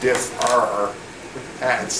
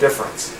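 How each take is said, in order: First: The middle E is pronounced, giving three syllables. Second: The middle E drops out, giving two syllables. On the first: "people don't say difference. Those letters are there" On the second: "People say difference. And when you talk fast, the E can kind of like disappear"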